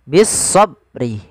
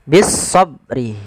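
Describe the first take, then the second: The two takes are said the same way.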